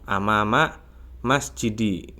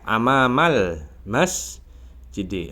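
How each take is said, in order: First: The two words join with no L sound. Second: An L sound links the two words. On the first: The speaker calls it wrong. "langsung amama masjidi gitu" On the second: The speaker calls it right. "Terus amama juga nggak dibaca alif lamnya"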